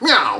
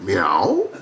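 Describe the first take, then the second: First: A clipped, fast old-movie gangster voice. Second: A low, mumbled modern tough-guy voice. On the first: "meowed like Jimmy Cagney in one of those little gangster films" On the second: "meowed like Robert De Niro in Taxi Driver"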